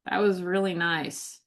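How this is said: It is said in a disgusted, insincere tone. The speaker actually finds it disgusting.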